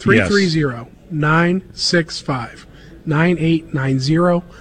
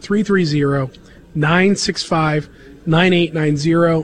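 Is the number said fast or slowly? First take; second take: slowly; fast. First: The number is said slowly. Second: The number is said fast.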